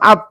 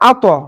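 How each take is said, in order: First: The final consonant stops plainly without any echo. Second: The final consonant is released with an echoing bounce. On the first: "আমার কিন্তু বলার কথা ছিল আত" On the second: "কারণ এটা কলকলা হরফ"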